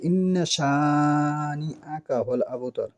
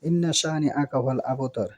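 First: The nn is nasalized and the vowel is lengthened. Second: The nn and the long vowel are short and plain. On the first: The speaker calls it right. "ইন্না গুন্না করতে হবে। ... এটা এক আলিফ টানতে হবে" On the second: The speaker calls it wrong. "এটা বল।"

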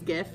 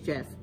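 First: The word begins with a hard g sound. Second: The word begins with a j sound. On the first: The speaker calls it wrong. "Because I said it was GIF" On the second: The speaker calls it right. "no, it's GIF. And it is"

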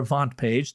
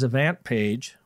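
First: The name is said with a European pronunciation. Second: The name is said with an American pronunciation.

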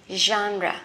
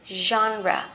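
No difference in how they are said.

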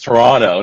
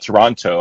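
First: The second T is soft. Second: The second T is hard. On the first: The speaker calls it right. "the T is soft" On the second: The speaker calls it wrong. "not Toronto"

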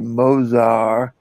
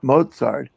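First: Mozart is pronounced the French way. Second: Mozart is pronounced the American way. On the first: This is how the Parisian host says it. "She taught me to say Mozart" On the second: This is how people back home say it. "not Mozart, as we pronounce it correctly"

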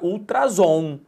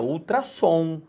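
First: The middle consonant is a buzzing Z sound. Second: The middle consonant is a hissing S sound. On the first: The speaker calls it wrong. "vai ficar ultrasom" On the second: The speaker calls it right. "para não gerar o som de Z e sim o som de S"

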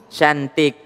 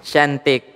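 No difference in how they are said.

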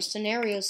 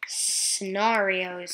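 First: The stressed vowel sounds like 'air'. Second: The stressed vowel sounds like 'ah'. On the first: "Scenarios sounds like S-C-E-N-A-I-R and then E-O-S" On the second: "scenarios sounds like S-C-E-N-A-R-E-O-S"

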